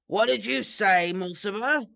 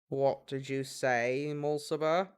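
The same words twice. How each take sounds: First: It is voiced as a different character. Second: It is voiced as Snape.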